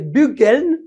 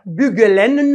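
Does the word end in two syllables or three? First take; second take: two; three. First: The word has no vowel before the final n. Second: The word has an extra vowel before the final n. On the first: The speaker calls it right. "non, c'est bugeln" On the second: The speaker calls it wrong. "On ne dira pas bugelen"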